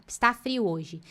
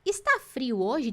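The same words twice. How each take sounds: First: "Está frio hoje." said level and falling like a fact; teacher's flat statement; plain statement. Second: "Está frio hoje?" slow, with a rising end on "hoje"; teacher modelling a question tune; question rise. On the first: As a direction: state it, no rise. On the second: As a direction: ask it, lifting at the end. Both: Shown as a demonstration. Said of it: "Se eu quisesse perguntar".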